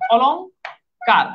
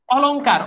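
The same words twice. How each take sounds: First: অলংকার said very slowly as "olong... kar"; split into parts. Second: Said in the usual way. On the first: Shown as a demonstration. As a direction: break অলংকার after the ng, pause, then "kar". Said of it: "অলং যোগকার". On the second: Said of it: "অলংকার বানান".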